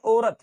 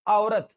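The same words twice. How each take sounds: First: औरत as "orat"; emphatic pure "o" in औरत; औरत with no opening "a"; wrong single vowel. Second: औरत as "aa-orat"; emphatic gliding start on औरत; correct double vowel. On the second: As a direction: open औरत on "a" and slide to "o". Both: Shown as a demonstration. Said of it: "not औरत".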